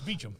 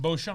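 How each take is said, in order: First: The name is said like Beecham. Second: The name is said the way it is spelled. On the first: This is how the name is actually said. The speaker calls it right. "but it's Beecham" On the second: This is how the spelling suggests it is said. The speaker calls it wrong. "It looks like Beauchamp"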